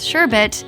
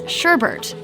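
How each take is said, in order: First: The second syllable is said as 'bet'. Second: The second syllable is said as 'bert'. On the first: The speaker calls it right. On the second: The speaker calls it wrong.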